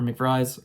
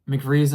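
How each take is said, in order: First: "McVries" with a long i, rhyming with fries; eye pronunciation. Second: "McVries" with a long ee, rhyming with breeze; ee pronunciation. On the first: Reviewer correcting to the alternative name, eye pronunciation. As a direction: say "McVries" as mick-VRIZE. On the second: Reviewer naming a favorite character, ee pronunciation. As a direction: say "McVries" as mick-VEEZ. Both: Shown as a demonstration. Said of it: "I don't know how to pronounce it".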